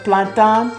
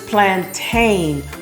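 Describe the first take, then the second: First: The word is said with a French pronunciation. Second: The word is said with an English pronunciation. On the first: "I like the French pronunciation of plantain" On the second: "versus plantain"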